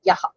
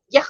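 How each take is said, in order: First: The final h is followed by a short echoed a. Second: It ends abruptly on a bare breathy h. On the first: The speaker calls it right. "It should be told as Yaha. Then it is correct" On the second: The speaker calls it wrong. "if we say Yah, the matra count will change"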